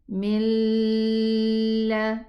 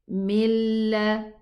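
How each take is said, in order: First: A nasal hum is heard before the l. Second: The n merges fully into l without nasal hum. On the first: The speaker calls it wrong. "but this is wrong" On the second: The speaker calls it right. "no ghunna"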